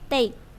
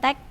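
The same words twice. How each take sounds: First: The vowel sounds like the letter A. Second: The vowel does not sound like letter A. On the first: The speaker calls it right. "tapi take. A, take" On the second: The speaker calls it wrong. "bukan take"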